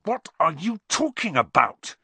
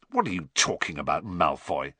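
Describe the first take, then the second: First: High, indignant demand; heated, exasperated question; angry. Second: Quick, rough challenge; brusque, low-ending question. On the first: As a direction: snap angrily at a taunter. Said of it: "said Harry angrily". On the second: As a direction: challenge a rival gruffly. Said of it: "said Ron roughly". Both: A narrator's reading.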